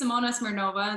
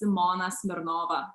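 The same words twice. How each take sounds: First: The name is said with English-style pronunciation. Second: The name is said with Lithuanian pronunciation. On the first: Everyone can understand it. "This way, everyone can understand" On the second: It is the native pronunciation. "in Lithuania, it's pronounced as"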